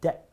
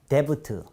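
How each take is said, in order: First: No b sound is heard before the final t. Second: A b sound is pronounced before the final t. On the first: The speaker calls it right. "B 발음하지 않습니다" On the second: The speaker calls it wrong. "데브트 이렇게 발음하시는 분이 많은데요"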